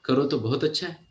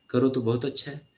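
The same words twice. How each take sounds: The two takes are said the same way.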